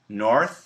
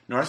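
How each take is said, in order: First: It is said at a slower, careful pace. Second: It is said quickly, the TH nearly vanishing.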